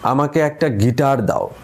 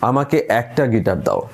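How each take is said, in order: First: The stress is on the third word. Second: The stress is on the second word. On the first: Only a guitar is wanted, nothing else. "এখন যদি তৃতীয় শব্দটায় জোর দিই" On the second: It sounds like a request. "দ্বিতীয় শব্দটায় জোর দিলে কি হয়"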